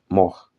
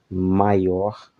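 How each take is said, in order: First: The middle sounds are dropped, leaving one short syllable. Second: The word is said in full with its middle sounds.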